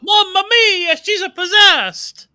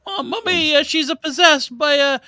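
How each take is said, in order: First: High, loud hammed-up Italian exclamation; mock Italian accent. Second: Put-on high, lighter Italian accent; mock Italian accent. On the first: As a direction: shout it like a cartoon Italian priest. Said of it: "Russell Crowe nails the accent". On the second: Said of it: "northern English sounding fella".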